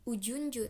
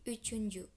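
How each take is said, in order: First: The middle consonant is a j sound. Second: The middle consonant is a ch sound. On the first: The speaker calls it wrong. "Itu nggak jadi Ujunju" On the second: The speaker calls it right. "tapi Uchunju"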